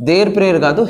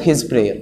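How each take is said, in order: First: Said in the usual way. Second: His said low and soft as the right answer; correction stressed on his. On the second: Shown as a demonstration. Teacher corrects students, softly stressing his. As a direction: settle on "his" as the quiet correction. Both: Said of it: "his prayer అనమాట".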